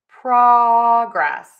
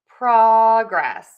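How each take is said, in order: First: The stress is on the first syllable. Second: The stress is on the first syllable.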